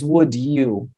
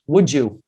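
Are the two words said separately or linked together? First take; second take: separate; linked. First: The d and y sounds stay separate. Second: The d and y blend into a j sound. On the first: "Would you já não é mais would you" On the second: "Ele vai virar would you; Eu modifiquei o som do D e do Y e ele ficou j"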